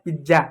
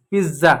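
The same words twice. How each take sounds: First: पिज्जा with a J sound, "pij-ja"; wrong pronunciation. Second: पिज्जा with a buzzed Z, "piz-za"; correct Z sound. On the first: Teacher mimics the common error, mispronounced with J. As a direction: use a hard J in पिज्जा. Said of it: "पिज्जा नहीं होता है". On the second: Teacher corrects the common error with a buzzing Z. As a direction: buzz the middle of पिज्जा as Z. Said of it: "ज और ज में क्या अंतर है". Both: Shown as a demonstration.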